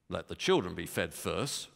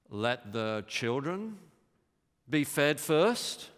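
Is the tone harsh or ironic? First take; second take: harsh; ironic. First: The words sound cold and harsh. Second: The words sound mocking and ironic. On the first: Jesus is rejecting the woman. "You could read it like this. ... It's very harsh" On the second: Jesus is voicing the Pharisees' view to expose it. "he could be deliberately dramatizing what the Pharisees thought, which is what I think he's doing. He could have said it like this"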